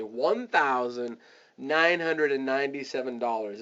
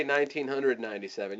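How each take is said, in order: First: "one thousand nine hundred and ninety-seven dollars" said in measured chunks; spelled out fully. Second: "nineteen hundred ninety-seven" run together quickly; quick casual price. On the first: Coach showing the right way to quote price, deliberately spelled out. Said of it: "you wanna say". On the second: Coach showing the wrong way to quote price, quick and casual. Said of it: "you don't wanna say". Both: Shown as a demonstration.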